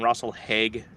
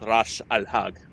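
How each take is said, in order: First: The name is pronounced the English way. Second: The name is pronounced the Swedish way. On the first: "that's its pronunciation in English" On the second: "in Swedish in particular, it's Ras Al Hag"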